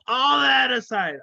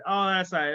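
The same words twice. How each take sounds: First: Shouted over a laugh, pitch jumping up; loud laughing blurt; loud burst. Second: Said in the usual way. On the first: Real, not acted. Laughing outburst then composure.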